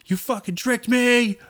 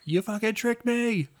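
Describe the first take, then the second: First: High, slow strained whisper yell; stage whisper. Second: High, slow hushed yell; stage whisper. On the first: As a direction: yell it, but under your breath. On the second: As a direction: hold back a shout to a whisper. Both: Retold or imitated. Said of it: "do a whisper yell".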